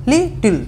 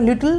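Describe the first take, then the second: First: "লিটল" broken in two, lit-tle, with higher first part; split into syllables. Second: Said in the usual way. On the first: Shown as a demonstration. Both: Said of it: "দুটো করে ভেঙে যাচ্ছে".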